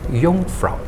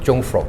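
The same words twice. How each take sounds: First: The word begins with a Y sound. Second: The word begins with an English J sound. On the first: "They used to pronounce as Y" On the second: "a lot of people they used to call it Jungfrau"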